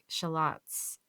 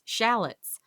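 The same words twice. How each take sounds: First: It is said in a non-American way. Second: It is said the American way.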